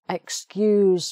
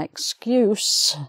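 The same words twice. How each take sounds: First: The word ends with a buzzing z sound. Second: The word ends with a hissing s sound. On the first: It is used as a verb. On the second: It is used as a noun.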